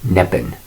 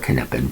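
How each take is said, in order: First: The initial K is silent. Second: The initial K is sounded. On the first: "I I don't, because I'm English" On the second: "if if you want to pronounce the K"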